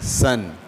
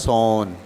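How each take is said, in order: First: The vowel is a short 'uh' sound. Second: The vowel is an open 'aw' sound. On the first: The speaker calls it right. "बल्कि कैसे पढ़ते हैं?" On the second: The speaker calls it wrong. "पढ़ने में तो ये कैसे पढ़ा जा रहा है? … ओ को ओ ऐसे नहीं पढ़ते"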